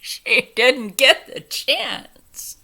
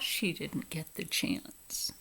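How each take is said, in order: First: She didn't get the chance said slow and loud through laughter, stressing get; loud, slow, laughing emphasis; laughing repeat. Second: She didn't get the chance dropped to a hushed, unvoiced near-whisper; hushed, slow aside; quiet aside. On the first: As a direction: laugh out the line, stretching every word. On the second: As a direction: murmur it under the breath, slow. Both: Real, not acted.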